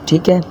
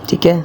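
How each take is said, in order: The two takes are said the same way.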